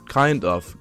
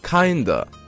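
First: Both words are clearly pronounced, with the F. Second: The words blend into one, ending in 'uh'. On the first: "但是呢其实口语里面通常不会发得这么的清楚" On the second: "We would not pronounce the F. It would sound like an A"

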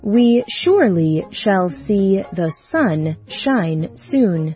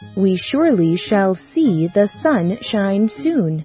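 First: It is said at a slower pace. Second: It is said a little faster.

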